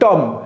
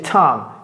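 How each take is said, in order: First: The T is a plain, clean stop. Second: The T is released with an S-like hiss. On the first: "Elle n'a pas dit Tom" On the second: "Comme si il y avait un S là-bas"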